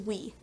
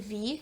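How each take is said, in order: First: The letter begins with a w sound. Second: The letter begins with a v sound. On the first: The speaker calls it wrong. "He says we" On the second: The speaker calls it right. "he doesn't say V"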